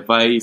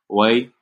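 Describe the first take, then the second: First: The word begins with a V sound. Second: The word begins with a W sound. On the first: "the V, or the W, is more like a V" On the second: "Sometimes the V could be like why"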